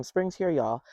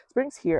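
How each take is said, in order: First: Said in the usual way. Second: Higher, louder announcement of spring; spring's here, pitched way up with delight; excited repeat. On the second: Real, not acted. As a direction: sing out that spring has come.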